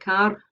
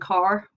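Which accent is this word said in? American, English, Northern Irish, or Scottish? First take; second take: Scottish; American. First: A Scottish accent, with the r pronounced. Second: An American accent, with the r pronounced. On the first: "in Scottish English, something like car" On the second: "In General American, car"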